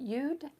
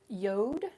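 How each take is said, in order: First: The vowel sounds like 'oo'. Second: The vowel sounds like 'oh'. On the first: "some people pronounce it Yud" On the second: "some people pronounce it Yod"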